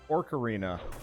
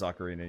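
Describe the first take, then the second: First: The first syllable has an R sound. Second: The first syllable has no R sound. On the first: The speaker calls it wrong. "I just started calling it an Orcarina" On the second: The speaker calls it right. "Yeah, it is Ocarina. You're right"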